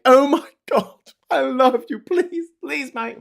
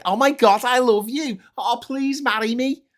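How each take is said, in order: First: Very high, loud gushing parody; mock adoring fan. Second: High falsetto swoon, loud at first; mock lovestruck fan. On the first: Fans swooning at a posh plummy accent, mock squeal. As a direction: squeal with hammed-up devotion. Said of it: "and they're like". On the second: Fan proposing to a posh speaker, mock swooning. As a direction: gush it like a hammed-up proposal. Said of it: "Well, it's more like".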